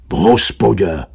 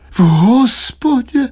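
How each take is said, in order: First: Low matter-of-fact answer with falling end; offhand fib, pitched down; fibbing husband. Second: High, drawn-out moaned question; aghast slow wail, pitched way up; moaning. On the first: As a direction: lie briefly in a grumpy husband's voice. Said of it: "zalhal muž". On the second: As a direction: moan it back in dismay. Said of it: "zasténala paní Štědrá". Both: A narrator's reading.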